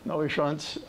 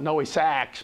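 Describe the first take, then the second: First: The second word sounds like 'schuntz'. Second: The second word sounds like 'sachs'.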